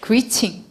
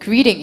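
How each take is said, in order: First: It is said with a British accent. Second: It is said with an American accent.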